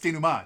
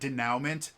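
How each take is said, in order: First: It is pronounced with a French pronunciation. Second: It is pronounced letter by letter, as spelled. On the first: The speaker calls it right. "it's French" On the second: The speaker calls it wrong. "spelled denouement, ... pronounce it denouement"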